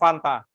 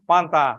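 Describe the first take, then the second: First: The word starts with an F sound. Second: The word starts with a P sound. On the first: "coba bilang Fanta" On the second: "F dan V jadi F, ya, jadi P"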